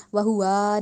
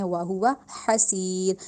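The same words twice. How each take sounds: First: وہوا said with a long added alif; wrong take. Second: وہوا حسیر slow with throat ح; slow tajweed demo; correct slow recitation. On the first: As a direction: demo the wrong stretched وہوا. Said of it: "وہوا نہیں کرنا". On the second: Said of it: "ہا، حلق سے". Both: Shown as a demonstration.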